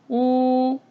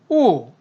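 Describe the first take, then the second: First: The pitch stays high and level. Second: The pitch falls sharply from high to low. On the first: "일성" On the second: "사성일 경우에는"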